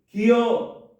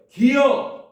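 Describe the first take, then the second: First: It is said at normal volume. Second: It is said in a louder voice.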